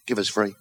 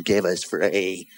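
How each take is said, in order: First: Low, offhand mumbled order; low request. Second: Low, very slow order; drawn-out request. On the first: Regular customer asking the chemist, low and brief. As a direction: ask briefly, pitched down. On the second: Customer back at the chemist, asking slowly and low. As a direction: stretch out each word, pitched down. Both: Acted.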